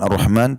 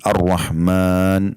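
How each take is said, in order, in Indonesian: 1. Vokal setelah m itu pendek. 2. Vokal setelah m itu dipanjangkan. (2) "Panjang karena ada alif di situ"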